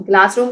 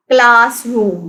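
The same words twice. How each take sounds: First: Said in the usual way. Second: classroom slowly split as class-room; syllable by syllable. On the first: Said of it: "भी टू syllables हैं". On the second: Shown as a demonstration. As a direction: sound out classroom in two separate beats. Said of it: "classroom के भी टू syllables हैं".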